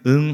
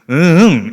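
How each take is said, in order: First: The pitch stays plain and level. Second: The pitch rises and then falls. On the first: It means yes. "그냥 응 하면은 yes일 수 있겠지만" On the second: It means no. "응을 올렸다가 꺾으면 그건 노라는 거죠"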